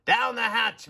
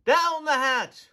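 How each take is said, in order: First: Loud pirate toast, a bit higher; captain's yell. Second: Slow, much higher, loud echo; the whole crew roars it back; crew shout. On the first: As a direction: bang the table and yell. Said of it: "pounded his fist on the table and yelled". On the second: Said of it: "we all shouted". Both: A narrator's reading.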